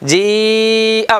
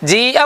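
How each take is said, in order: First: The first vowel is stretched out long. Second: The first vowel is held only briefly. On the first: The speaker calls it right. "എന്തു വേണം? ജീ അ വേണം. അസ്ലിയായ മദ്ദിനേക്കാൾ കൂടുതൽ നീട്ടണം" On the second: The speaker calls it wrong. "പറ്റുമോ? പറ്റൂല"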